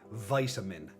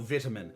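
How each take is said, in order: First: The word is said in an American accent. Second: The word is said in a British accent. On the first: The speaker calls it wrong. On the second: The speaker calls it right.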